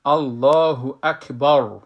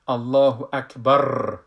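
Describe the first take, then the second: First: الله اکبر slow and loud with a full heavy ra; full ra takbir. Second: الله اکبر with a trembling wavering vowel; wrong shaky takbir. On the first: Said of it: "را را پر بگوییم". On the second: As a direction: wobble the sound of الله اکبر as a mistake. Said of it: "این غلط است". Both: Shown as a demonstration.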